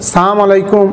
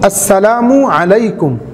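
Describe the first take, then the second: First: The greeting is said with its opening sound clipped. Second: The greeting is said with every sound fully pronounced. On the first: The speaker calls it wrong. "এই ধরনের উচ্চারণ করে ভঙ্গিমা করে সালাম না দেওয়া" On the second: The speaker calls it right. "সালামের শুদ্ধ রূপ হলো"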